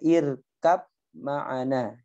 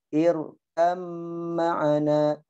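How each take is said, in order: First: The b is pronounced before the m. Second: The b merges fully into the following m.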